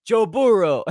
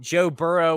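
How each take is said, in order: First: Put-on Joe Burrow in a Spanish play-by-play accent, higher and louder; Spanish announcer's big rolling call of Burrow. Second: Said in the usual way. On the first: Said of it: "when you hear the Spanish announcers cover the Bengals game". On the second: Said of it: "when you hear the Spanish announcers".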